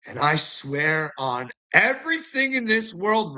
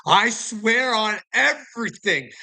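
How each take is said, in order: First: Said in the usual way. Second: Higher, slow, each word leaned on; earnest repeated vow; emphatic oath. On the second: Real, not acted. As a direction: swear it like you mean it, slow and higher.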